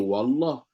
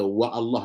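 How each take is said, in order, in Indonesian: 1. Awalan langsung menyambung ke kata, tanpa hamzah. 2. Awalan terputus oleh bunyi hamzah. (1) "jadi jadi wallah" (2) "Mana ada orang baca wa Allah lagi dah?"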